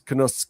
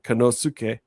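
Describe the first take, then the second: First: The u vowel is nearly silent. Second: The u vowel is fully pronounced. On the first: The speaker calls it right. "It's Konosuke" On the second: The speaker calls it wrong. "is not Konosuke"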